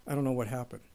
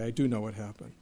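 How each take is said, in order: First: Quiet mock denial with don't leaned on; stress on don't. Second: Quiet wry admission with "do" pressed firmly; stress on do. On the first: Pastor joking about his hair going grey, stressing don't. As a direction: say "don't" with weight, then let the line drop. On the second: Pastor admitting he got old, stressing do. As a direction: lean into "do" to correct himself. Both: Shown as a demonstration.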